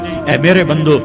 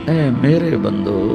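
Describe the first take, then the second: First: It is said in a plain, unaffectionate tone. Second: It is said in a soft, tender tone. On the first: The speaker calls it wrong. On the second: The speaker calls it right.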